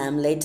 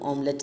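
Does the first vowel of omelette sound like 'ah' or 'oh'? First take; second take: ah; oh. First: The first vowel sounds like 'ah'. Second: The first vowel sounds like 'oh'. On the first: The speaker calls it wrong. "നമ്മൾ ആംലേറ്റ് എന്നാണ് പറയുക" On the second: The speaker calls it right. "ശരിക്കും ഓംലെറ്റ് എന്നാണ് പറയേണ്ടത്"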